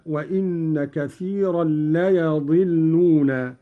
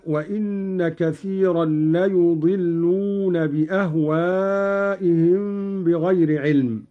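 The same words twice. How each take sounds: First: «ليضلون» with a fatha on the ya, said as layadilluna; «ليضلون» said slowly, the ya opened; reading of Qalun. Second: Said in the usual way. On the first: Shown as a demonstration. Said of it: "بفتح الياء هكذا". («ليضلون» بفتح الياء) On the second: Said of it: "قرأ قالون بفتح الياء".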